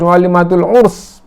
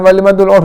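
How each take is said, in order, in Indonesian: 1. Kata itu berakhir dengan bunyi s. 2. Kata itu berakhir dengan bunyi sh. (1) "pakai sin" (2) "bukan walimatul urs"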